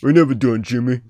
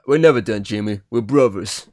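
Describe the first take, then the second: First: Stallone impression. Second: Lightly done Stallone-style mumble, a bit louder; a passing hint of Sylvester Stallone; Stallone impression. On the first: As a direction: lean into a mock Stallone growl. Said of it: "I did a Stallone sort of". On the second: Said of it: "I did a Stallone accent then".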